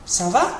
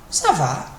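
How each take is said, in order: First: "Ça va" rising as a question; question intonation. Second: "Ça va" falling as a reply; answer intonation. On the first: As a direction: ask "Ça va" with va going up. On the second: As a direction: answer "Ça va" with va going down. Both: Shown as a demonstration. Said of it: "with a different intonation".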